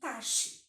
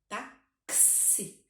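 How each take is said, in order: First: The x sounds like 'sh'. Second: The x sounds like 'ks'. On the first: The speaker calls it wrong. "porque a gente está acostumado com o som do X" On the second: The speaker calls it right. "ele pega o som do C e do S"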